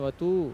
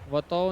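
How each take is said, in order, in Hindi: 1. t के बाद का स्वर 'u' की ध्वनि है। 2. t के बाद का स्वर 'o' की ध्वनि है। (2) "वतो नहीं"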